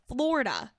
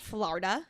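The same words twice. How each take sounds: First: It is said with a local Florida pronunciation. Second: It is said with a New York pronunciation. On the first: The speaker calls it right. "that's how you say it, South Florida" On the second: The speaker calls it wrong. "Not Florida. You're not from New York"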